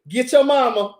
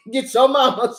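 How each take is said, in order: First: Said in the usual way. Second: Laughing while repeating the warning. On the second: Retold or imitated. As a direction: say it through laughs, half-joking.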